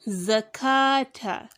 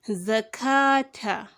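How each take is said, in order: No difference in how they are said.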